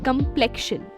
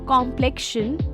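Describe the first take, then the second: First: The stress is on the second syllable. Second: The stress is on the first syllable. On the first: The speaker calls it right. "the stress is on the second syllable" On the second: The speaker calls it wrong. "It's not complexion"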